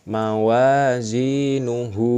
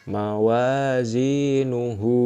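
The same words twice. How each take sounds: No difference in how they are said.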